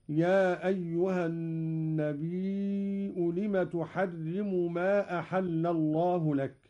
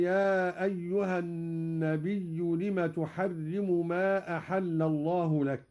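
First: النبي with a hamza and a four-count long vowel, an-nabii'u; Qalun reading. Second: النبي with a doubled ya, an-nabiyyu; standard reading. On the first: Teacher demonstrates Qalun's reading, long vowel and hamza. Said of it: "قرأ قالون بهمز الياء فيصير عنده مدا متصلا". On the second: Teacher recites the usual reading, an-nabiyyu. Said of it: "قرأ قالون بهمز الياء". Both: Shown as a demonstration.

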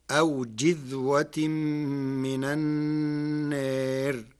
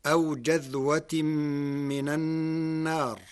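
First: جذوة with kasra on the jim, jidhwa; جذوة read jidhwa, slow recitation; Warsh reading. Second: جذوة with fatha on the jim, jadhwa; جذوة read jadhwa; standard reading. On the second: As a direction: recite جذوة opening on jim. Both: Shown as a demonstration. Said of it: "بكسر الجيم".

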